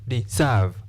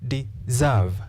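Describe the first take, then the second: Both takes have the same delivery.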